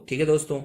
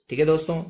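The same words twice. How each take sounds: The two takes are said the same way.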